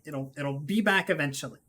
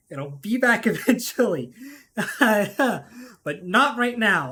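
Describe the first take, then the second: First: Said in the usual way. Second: Louder, slow, giggling through the words; can't hold back the laughter on the repeat; laughing through it. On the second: Real, not acted. Repeats the line, laughing second time.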